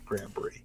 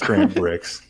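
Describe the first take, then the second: First: The name ends with an 'ee' sound. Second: The name ends with a 'ks' sound. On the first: The speaker calls it wrong. "I like to say Brie ... just to get a reaction" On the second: The speaker calls it right. "it's Grant Bricks"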